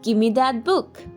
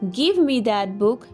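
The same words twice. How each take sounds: First: Give and me blend into one word, gimme. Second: Give and me are said as two full words. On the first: "you will say" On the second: "instead of saying"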